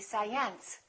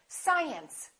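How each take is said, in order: First: The stress is on the second syllable. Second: The stress is on the first syllable. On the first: The speaker calls it wrong. "If this mark were located over here, the pronunciation would have to be science" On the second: The speaker calls it right. "we say science"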